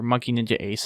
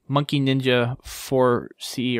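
First: The ending is read as ace. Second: The ending is read as four C.

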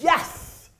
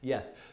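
First: It is said loudly. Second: It is said calmly.

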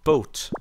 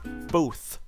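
First: The word sounds like 'boat'. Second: The word is said in the standard way.

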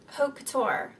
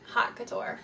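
First: The first word sounds like 'oat', no 'h'. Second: The first word sounds like 'hot'. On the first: The speaker calls it right. "Because like Haute Couture is like" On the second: The speaker calls it wrong. "not Hot Couture"

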